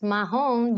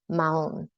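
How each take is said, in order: First: An audible H sound is pronounced mid-word. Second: The H is silent, with no breath sound. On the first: The speaker calls it wrong. "That is not pronounced mahon" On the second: The speaker calls it right. "So do not pronounce that H. It's a maun"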